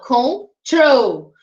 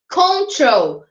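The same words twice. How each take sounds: First: "control" split in two, weight on the last syllable; final-syllable stress. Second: Said in the usual way. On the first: Shown as a demonstration. ("control" com a sílaba final mais forte) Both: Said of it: "eu tenho a minha sílaba mais forte no final".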